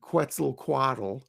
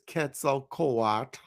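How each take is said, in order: First: The name is said with English-style sounds. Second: The name is said with Nahuatl-style sounds. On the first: This is how most people commonly say it. "People often call him Quetzalcoatl" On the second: This is how the original speakers said it. "I'm pronouncing it like the the Aztecs would"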